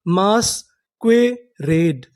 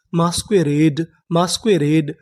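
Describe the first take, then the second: First: Very slow, drawn-out reading; मास्क्वेरेड drawn out slowly, syllable by syllable; slow syllable demo. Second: Said in the usual way. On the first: Shown as a demonstration. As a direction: stretch each syllable of मास्क्वेरेड. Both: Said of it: "तो हमारी पूरी meaning क्या बनी?".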